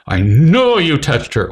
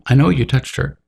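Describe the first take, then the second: First: It is said in a harsh, accusing tone. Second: It is said in a calm, even tone. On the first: The conversation is over. The speaker calls it wrong. "Not, ... your conversation's over" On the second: The conversation can continue. The speaker calls it right. "in this tone of voice. Calm"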